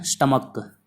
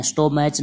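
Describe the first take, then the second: First: स्टमक said stuh-muk, short first vowel; teacher giving the right स्टमक; correct stomach. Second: स्टोमैच said sto-maich, the way some students misread it; teacher quoting students' wrong स्टोमैच; wrong stomach. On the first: Shown as a demonstration. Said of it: "इसको बोलते हैं स्टमक". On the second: Retold or imitated. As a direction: say स्टोमैच as sto-maich, the mistake being corrected. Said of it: "स्टोमैच नहीं है".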